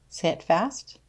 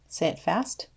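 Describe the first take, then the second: No difference in how they are said.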